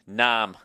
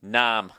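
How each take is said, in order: First: The name is said with a flat 'a' vowel. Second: The same.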